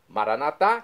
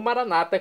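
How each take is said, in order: First: The stress is on the last syllable. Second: The stress is on the second-to-last syllable. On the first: "com a tônica na última sílaba, como dizemos nós católicos" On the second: This is the evangelical Protestant way of saying it. "como dizem nossos irmãos das comunidades evangélicas ou protestantes"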